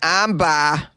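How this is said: It is said in a Boston accent. The speaker calls it right.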